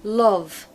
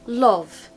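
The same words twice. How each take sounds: First: The vowel is a rounded 'o' sound. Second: The same.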